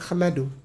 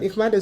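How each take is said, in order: First: The word begins with an 'a' sound. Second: The word begins with an 'i' sound. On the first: The speaker calls it right. "sebenarnya ahmadu" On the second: The speaker calls it wrong. "dibacanya bukan ihmadu"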